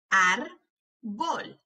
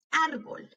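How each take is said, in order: First: "Árbol" slowly as ár, pause, bol; broken into syllables. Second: Said in the usual way. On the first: Shown as a demonstration. Teacher helping hear each sound, syllable by syllable. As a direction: break "Árbol" in two. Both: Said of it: "quiero que las quiebres entre sílabas".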